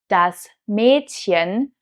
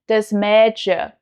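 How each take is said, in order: First: The ch is the soft ich sound. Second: The ch is an sh sound.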